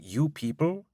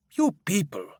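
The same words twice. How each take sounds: First: Offended echo. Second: Scornful scoff. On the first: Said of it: "I'm quite offended by this". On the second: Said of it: "He laughs to himself". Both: Acted.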